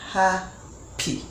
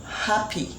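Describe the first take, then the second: First: "Happy" split as ha... py; syllable by syllable. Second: Said in the usual way. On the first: Shown as a demonstration. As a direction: leave a clear pause between the two syllables of "Happy". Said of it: "Ha is one unit of sound". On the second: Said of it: "the first one we have here is".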